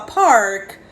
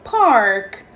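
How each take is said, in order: No difference in how they are said.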